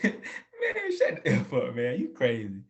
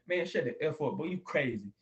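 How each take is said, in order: First: It is said laughing, in a joking tone. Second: It is said seriously, in a hostile tone.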